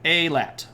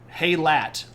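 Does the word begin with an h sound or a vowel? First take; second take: vowel; h sound. First: It begins with a vowel, no h. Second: It begins with an h sound. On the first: The speaker calls it right. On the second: The speaker calls it wrong.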